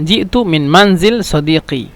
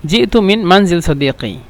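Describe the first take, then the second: No difference in how they are said.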